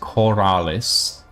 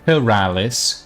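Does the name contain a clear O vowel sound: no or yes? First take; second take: yes; no. First: The name is said with a clear O vowel. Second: The name is said without a clear O vowel. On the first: The speaker calls it right. "There's an O in there" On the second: The speaker calls it wrong. "not Corralis"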